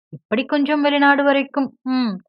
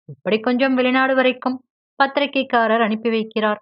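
First: A higher, louder mocking echo of his words; mocking mimicry. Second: Said in the usual way. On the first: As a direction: parrot him back with a sneer. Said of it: "அப்படியே சொல்லிக் காட்டி". (கேலியாக அப்படியே திருப்பிச் சொல்லுதல்)

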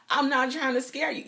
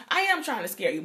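First: "I'm" up high, mock-innocent denial; teasing denial, then the reveal; fake reassurance. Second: Teasing reveal after the denial; playful admission. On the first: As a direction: deny it with a wink. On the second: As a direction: stress on "I am", owning it. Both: Shown as a demonstration. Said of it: "Yes, I am".

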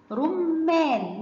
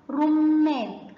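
First: رمان stretched very slowly, the ر with a clear u; slow sounding-out. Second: رمان stretched very slowly and a little louder; slow sounding-out. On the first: Teacher modelling the damma word for children. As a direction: draw out رمان. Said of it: "زي كلمة". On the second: Teacher repeating the word for children. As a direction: draw out رمان once more. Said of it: "تعالوا نشوف صوتها". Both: Shown as a demonstration.

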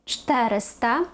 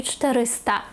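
First: ЧТЕриста, stress on the first vowel; third-from-last stress. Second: ЧтеРИста, stress on РИ; wrong penultimate stress. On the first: Teacher correcting the numeral, stress third from end. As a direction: lean on ЧТЕ in "чотириста". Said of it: "а на третій". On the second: Teacher showing what not to say, stress on second-last. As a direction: push РИ in "чотириста". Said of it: "не чотириста". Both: Shown as a demonstration.

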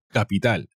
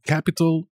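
First: Capital in Spanish, flat even stress, kapital; teacher gives Spanish Capital right after the English; Spanish pronunciation. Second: Capital in English, higher, as kapitol; teacher contrasts English Capital with the Spanish, higher pitched; English pronunciation. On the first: Teacher gives the Spanish version. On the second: Teacher says the English word higher. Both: Shown as a demonstration.

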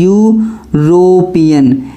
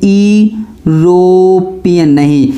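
First: यूरोपियन said slowly, starting with a "you" sound; a careful, slow यूरोपियन beginning with यू; right pronunciation. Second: यूरोपियन said slowly with the wrong sound, not "you"; dragging out यूरोपियन the way pupils misread it; wrong pronunciation. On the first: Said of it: "आपको इसको pronunciation देखना पड़ेगा". (सही उच्चारण में धीरे से यूरोपियन) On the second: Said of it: "यूरोपियन ना पढ़ के इसे यूरोपियन पढ़ते हैं". (गलत उच्चारण में धीरे से यूरोपियन) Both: Shown as a demonstration.

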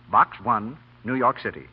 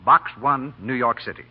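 The two takes are said the same way.

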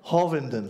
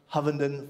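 First: Hovenden said with an open "ah" vowel, HAH-vin-den; corrected name. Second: Hovenden said with a short "uh" vowel, HUV-en-den; first try at the name. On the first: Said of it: "It's either Hovenden or Hovenden". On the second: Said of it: "I'll get it right one day". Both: Real, not acted.

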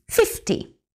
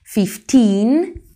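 First: Teacher contrasting "fifty" with "Fifteen"; short ty. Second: Put-on "Fifteen" louder, with a rising, long "teen"; teacher contrasting "Fifteen" with "fifty". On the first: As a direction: breathe a short, dry "fifty". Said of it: "Es más seco, es más rápido". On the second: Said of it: "Fijaos en la diferencia". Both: Shown as a demonstration.

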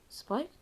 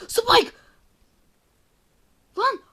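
First: Said in the usual way. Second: Shrieked high and loud "Spike!"; startled scream. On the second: Real, not acted. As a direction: scream the name in fright. Scared by the enemy Spike.

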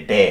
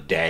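First: "ডে" cut short with a pure E. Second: "ডে" stretched into a gliding day; drawn-out DAY. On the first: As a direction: say "ডে" without the glide. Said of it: "এটা ডে না কিন্তু". ("ডে" টান ছাড়া, ছোট করে) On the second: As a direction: draw out "ডে" toward an i at the end. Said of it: "একটু টান দিতে হবে". ("ডে" একটু টান দিয়ে) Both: Shown as a demonstration.

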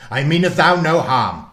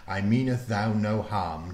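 First: Lightly voiced gruff old warlock, loud; a hint of a rough old man calming her; gruff man's voice. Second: Said in the usual way. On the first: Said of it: "in a low, gruff man's voice".

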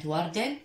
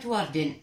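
First: وردن ending in a clear "-an", warDAN; tanwin fath ending. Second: وردن ending in "-in", wardin; tanwin kasr ending. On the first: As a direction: say وردن with final -an and a sounded n. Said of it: "تنوين الفتح مثل كلمة". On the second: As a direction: say وردن with final -in and a sounded n. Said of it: "وتنوين الكسر مثل كلمة". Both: Shown as a demonstration.

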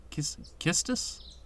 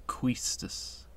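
First: "Quistis" with plain K, questioning; unsure pronunciation. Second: "Quistis" with a long KWEE; trying a pronunciation. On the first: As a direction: softly test "Quistis" as KISS-tis, rising. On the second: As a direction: softly try "Quistis" as KWEE-stis. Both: Shown as a demonstration. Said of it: "not sure how to pronounce it".

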